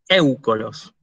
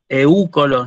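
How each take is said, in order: First: The stress falls on the e of eu. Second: The stress falls on the u of eu. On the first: The speaker calls it right. "digo éucolos... Pronuncio el acento sobre la épsilon" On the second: The speaker calls it wrong. "Yo no digo eúcolos"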